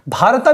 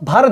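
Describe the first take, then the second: First: The word ends with a final 'a' vowel. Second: The word ends on the 't' consonant. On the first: "भारता भी पढ़ते हैं इसको" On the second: "भारत भी पढ़ सकते हैं आप"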